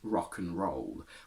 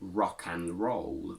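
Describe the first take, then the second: First: The word 'and' is reduced to 'un'. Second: The word 'and' is said in full. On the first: The speaker calls it right. "where and becomes un" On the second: The speaker calls it wrong. "We don't say rock and roll"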